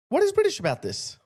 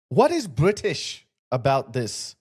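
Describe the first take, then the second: First: Incredulous. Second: Said in the usual way. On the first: Shown as a demonstration. Host repeats his question to viewers, higher and incredulous. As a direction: pitch jumps much higher in disbelief.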